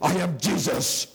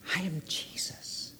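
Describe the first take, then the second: First: It is said in a stern, harsh tone. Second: It is said in a gentle, loving tone. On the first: The speaker is condemning the listener. "you could read it like this" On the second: The speaker loves the listener and wants reconciliation. "he heard that voice and he was just melted in his heart"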